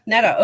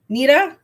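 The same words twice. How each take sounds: First: Netta said as NET-ta, falling; settled on the name. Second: Nita said as NEE-da, unsure rise; trying another name. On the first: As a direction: Netta with short e, firm fall. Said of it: "Okay, Netta". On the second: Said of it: "Sorry, I'm really bad at names". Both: Real, not acted.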